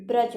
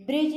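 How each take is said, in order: First: ब्रज with a plain short a; correct form. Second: ब्रिज with a short i, like English bridge; wrong form. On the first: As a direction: say ब्रज as braj. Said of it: "ब्रज होता है". (ब्रज को सही रूप में बोलें) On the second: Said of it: "ब्रिज नहीं". (ब्रिज को गलत रूप में बोलें) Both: Shown as a demonstration.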